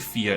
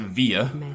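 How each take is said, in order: First: The word begins with an F sound. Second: The word begins with a V sound. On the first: The speaker calls it right. "I think it's an F sound" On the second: The speaker calls it wrong. "I believe it's spelt with a V. So I used to pronounce it via"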